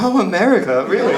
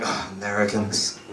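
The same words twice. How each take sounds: First: High-pitched mock awe; light up with wonder, voice jumping higher; impressed Poles. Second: Low, muted mock groan; unimpressed Europeans. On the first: Poles reacting to an American, starstruck. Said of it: "here in Poland, they're like". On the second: Other Europeans reacting to Americans, unimpressed. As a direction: say it like a soft, weary dismissal. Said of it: "other parts of Europe, they're like".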